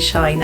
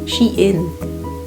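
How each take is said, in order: First: The vowel is one diphthong, rhyming with 'fine'. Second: The vowel is not the 'fine' diphthong.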